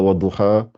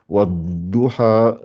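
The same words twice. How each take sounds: First: The d sound is short and quickly released. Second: The d sound is doubled and held longer. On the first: The speaker calls it wrong. "Ne dites pas wadduha" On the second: The speaker calls it right. "mais dites bien wadduha, laissez le temps à la lettre de sortir"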